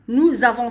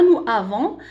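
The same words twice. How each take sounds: First: "nous avons" joined with a z sound; liaison marked. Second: "nous avons" with no z between the vowels; liaison missing. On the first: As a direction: link "nous" to "avons" with a clear z. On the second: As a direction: say "nous avons" unlinked, as the wrong example. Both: Shown as a demonstration. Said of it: "c'est pas nous avons".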